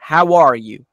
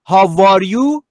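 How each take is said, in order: First: The glide is a rounded W sound. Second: The glide is made like a V sound. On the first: The speaker calls it right. "لبها لوله ای" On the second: The speaker calls it wrong. "پس نیست"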